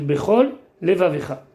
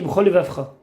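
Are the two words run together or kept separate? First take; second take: kept separate; run together. First: A short pause separates the two words. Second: The words are said quickly and run together. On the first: Both l sounds are heard. The speaker calls it right. "Il faut dire bechol levavecha" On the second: One of the two l sounds is swallowed. The speaker calls it wrong. "Si on lit vite, on dit bechol levavcha. Donc on a sauté un lamet"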